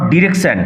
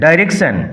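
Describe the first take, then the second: First: The first syllable sounds like 'dih'. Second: The first syllable sounds like 'dye'. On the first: The speaker calls it wrong. "Not ডিরেকশন" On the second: The speaker calls it right. "উচ্চারণ লক্ষ্য করো"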